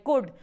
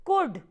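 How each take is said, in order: First: Said in the usual way. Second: कुड said with a silent l, pitched up and stressed as the answer; correct could. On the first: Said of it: "इसको हमेशा कुड बोलते हैं". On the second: Shown as a demonstration. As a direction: say कुड clearly, no l sound, rising high. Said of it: "इसको क्या बोलना है?". (कुड को बिना एल के, ऊँचे सुर में ज़ोर देकर)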